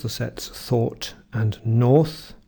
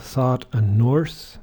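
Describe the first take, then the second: First: Slow RP: "thought" and "north" with the same long rounded vowel; RP vowel demo. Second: American: "thought" with an open ah, "north" with a clear R; American accent. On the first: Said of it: "And now the or vowels". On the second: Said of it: "Americans would have". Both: Shown as a demonstration.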